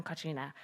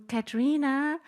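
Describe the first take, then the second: First: Katrina said softer with an open ah, aspirated k, falling; corrected name. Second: Katrina said with the a of cat, rising; first try at the name. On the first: Host introducing the guest, correcting to Katrina with an open ah. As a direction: Katrina as KHAH-tree-na, open ah and a breathy k. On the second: Host introducing the guest, trying Katrina with an a as in cat. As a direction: Katrina as kat-REE-na, the a as in cat. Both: Real, not acted.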